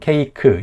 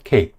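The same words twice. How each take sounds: First: It is split into several syllables. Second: It is said as a single syllable. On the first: The speaker calls it wrong. "이게 아니라" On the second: The speaker calls it right. "다 이름절 단어인 거예요"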